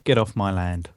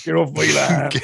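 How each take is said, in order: First: Gruff West Country farmer; West Country accent. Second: Louder, higher West Country farmer; West Country accent. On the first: Acted. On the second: Retold or imitated. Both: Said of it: "You can't do that in a West Country accent".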